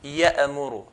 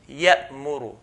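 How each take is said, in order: First: The hamza bounces with an echo sound. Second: The hamza stops cleanly with no echo. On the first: The speaker calls it wrong. "and not ya'muru ... We do not bounce it, echo sound" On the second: The speaker calls it right. "we do not produce a qalqala, echo sound"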